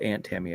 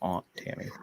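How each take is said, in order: First: Aunt is said with a flat 'ant' vowel. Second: Aunt is said with a broad 'ahnt' vowel. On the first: This is how the region says it. The speaker calls it right. "we're gonna call it Aunt Tammy up here" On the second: This is how the other person says it. The speaker calls it wrong. "not Aunt Tammy"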